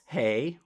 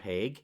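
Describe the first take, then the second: First: The name ends in a vowel with no g. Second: The name ends with a hard g sound.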